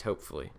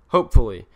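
First: Muttered under the breath, lower and much softer; quiet afterthought. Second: HOPEFULLY said out loud, much louder than before; emphatic repeat. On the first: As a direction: tack it on quietly, almost to yourself. Mutters then repeats louder. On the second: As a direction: repeat it with firm hope. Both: Real, not acted.

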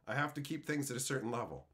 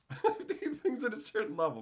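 First: Said in the usual way. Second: Laughing through the repeat; chuckling as he repeats himself. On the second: Real, not acted. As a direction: say it again while laughing. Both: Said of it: "said again laughing".

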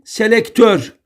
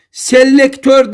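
First: Selektör with a short, single L. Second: Selektör with a long, doubled L; wrong double L. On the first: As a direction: keep the L of selektör brief. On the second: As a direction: hold the L of Selektör: "sel-lektör". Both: Shown as a demonstration. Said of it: "Tek L ile".

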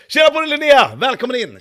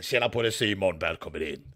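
First: Much higher, louder hearty hello; "Tjena" yelled high and bright; loud excited greeting. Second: Much lower, softer rough-voiced greeting; "Tjena" dropped low and quiet, fading; imitating Nia's worn voice. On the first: Acted. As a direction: belt out the welcome. Ni ska höra Nias röst. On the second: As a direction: croak the welcome like a wrecked voice. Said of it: "Ni ska höra Nias röst".

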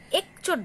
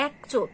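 First: একচোট with a tight "e", "ek-chot"; closed e. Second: একচোট said "aek-chot"; open ae. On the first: Teacher showing what we don't say, closed e in একচোট. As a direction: keep the first vowel of একচোট closed. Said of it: "বলছি না". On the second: Teacher giving an example to students, open ae in একচোট. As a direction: open the first vowel of একচোট wide. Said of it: "বিবৃত উচ্চারণ হচ্ছে". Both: Shown as a demonstration.

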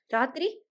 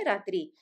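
First: ராத்திரி pushed higher and louder with a rising end; ராத்திரி again, higher and louder, rising as he works up to it; hesitant repeat. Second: A faltering first ராத்திரி; hesitant start. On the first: Maruthamuthu forces the word out the second time, higher and louder. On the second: Maruthamuthu hesitates to tell the night's story, faltering. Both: Acted. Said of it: "சற்று தயங்கி சொன்னான்".

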